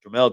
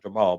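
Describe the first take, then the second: First: The name ends with a 'mel' sound. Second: The name ends with a 'mal' sound. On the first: The speaker calls it right. "but Jamel Charlo" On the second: The speaker calls it wrong. "not Jamal"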